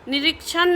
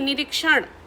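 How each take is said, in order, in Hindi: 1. अंतिम न की ध्वनि दंत्य है। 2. अंतिम न की ध्वनि मूर्धन्य है।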